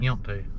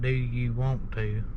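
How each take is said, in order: First: The words are run together quickly. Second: Each word is said separately and clearly. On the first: "Run it together. Smash it together ... say it real fast" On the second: "we don't say it"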